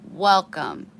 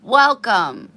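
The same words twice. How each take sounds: First: Said in the usual way. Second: Loud bright welcome; big happy greeting; enthusiastic welcome. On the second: Real, not acted. Greeting new viewers warmly.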